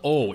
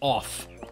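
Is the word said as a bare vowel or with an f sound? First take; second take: bare vowel; f sound. First: It is said as a bare vowel sound. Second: It is said with a final f sound. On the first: The speaker calls it wrong. "It's not O" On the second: The speaker calls it right. "you have to pronounce it off"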